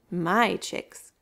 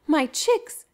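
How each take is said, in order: First: Lower, possessive lion; lion's claim. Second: Higher anxious mother ostrich cry; mother's cry. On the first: Lion answering Mama Ostrich, low and possessive. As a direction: claim them calmly as your own. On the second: Mama Ostrich finding her chicks with Lion, crying out. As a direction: call out for your lost babies. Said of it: "she cried". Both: A narrator's reading.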